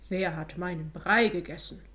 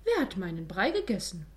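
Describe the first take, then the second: First: Lightly voiced growling papa bear; Father Bear's growl. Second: Mildly cross mama bear, swooping tune; annoyed Mother Bear. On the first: Father Bear finds his porridge eaten, deep grumble. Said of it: "brummte Vater Bär mit tiefer Stimme". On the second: Mother Bear asks who ate her porridge, annoyed. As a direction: ask it with a touch of annoyance. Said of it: "fragte Mutter Bär ärgerlich". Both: A narrator's reading.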